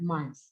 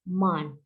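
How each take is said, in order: First: The word ends with a th sound. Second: The final th sound is dropped. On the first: This is the standard English pronunciation. The speaker calls it right. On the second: This is how Indonesian speakers say it. The speaker calls it wrong.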